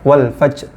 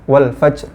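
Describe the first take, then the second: No difference in how they are said.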